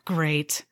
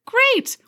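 First: Deadpan great. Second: Chirpy great. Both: Acted. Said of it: "every third word out of my mouth is great".

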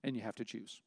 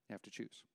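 First: Softer plea. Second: "You have to choose" almost murmured, much softer than before it; hushed plea. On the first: Preacher's closing plea, dropping quieter. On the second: Preacher pressing the congregation, hushed and earnest. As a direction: drop to a near hush on "choose". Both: Real, not acted.

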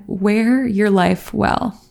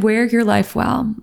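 First: Teary. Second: Said in the usual way. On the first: Real, not acted. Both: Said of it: "Sorry, I just got really teary".

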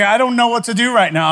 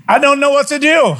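First: Said in the usual way. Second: Higher, louder, at a loss in the doorway; helpless panic. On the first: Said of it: "I'm like". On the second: Retold or imitated. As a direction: blurt it out, stunned and helpless. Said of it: "I'm standing there now going".

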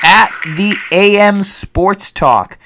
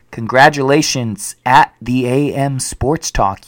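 First: High, slow, drawn-out winner name; hyped announcer reveal. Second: Said in the usual way. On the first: Acted. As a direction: stretch the name out like a ring announcer.

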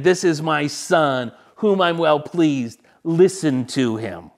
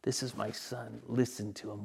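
First: Slow, louder declaration; booming heavenly proclamation, unhurried; proclaiming God's voice. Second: Much softer, near-whispered reverence; awed, quiet repeat of the heavenly words; hushed echo. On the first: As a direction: announce it with solemn weight. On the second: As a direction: let it fall to a reverent hush. Same words echoed back, hushed. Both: Acted.

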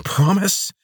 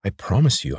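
First: Mocking "Promise?" hissed up high and loud, rising; guard hissing his own word back at the prisoner. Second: Said in the usual way. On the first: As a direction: throw his word back at him with scorn. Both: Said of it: "she hissed".

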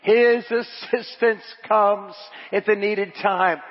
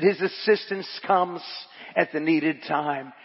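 First: "His assistance comes" drawn out slowly, raised in pitch; slow emphatic repeat. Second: Said in the usual way. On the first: Acted. Preacher repeats to congregation, "His assistance comes" slow and emphatic. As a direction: stretch and weight each word of "His assistance comes".

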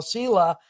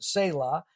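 First: Said in the usual way. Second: "Selah" with a long ay, SAY-lah; alternative pronunciation. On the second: Shown as a demonstration. Showing listeners how some people say the Hebrew word, "Selah" as SAY-lah. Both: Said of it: "Some people pronounce it Selah".

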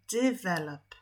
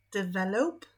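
First: "Develop" with a weak first syllable and a clear "lop"; correct develop. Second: "Develop" with a full "dev" and a flat "lep" ending, asked; wrong develop. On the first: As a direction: say "Develop" the right way, stress off the start. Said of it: "jak akcentujemy". (poprawne "Develop", akcent nie na początku) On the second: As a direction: try "Develop" the wrong way, as a question. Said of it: "Nie, nie". (błędne "Develop" z pytającą intonacją) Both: Shown as a demonstration.

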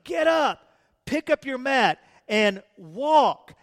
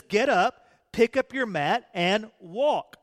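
First: Louder, rising command; Jesus urging the lame man with intensity; intense command. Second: Enthusiastic command. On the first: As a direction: get up, pick up your mat, and walk with fire. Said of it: "He had intensity about the way". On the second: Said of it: "With enthusiasm". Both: Acted.

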